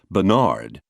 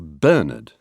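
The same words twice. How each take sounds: First: The final syllable is heavily stressed. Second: One syllable other than the last is stressed. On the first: This is an overdone attempt at sounding French. "hurl the emphasis onto the final syllable" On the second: This is the English pronunciation. "We say Bernard"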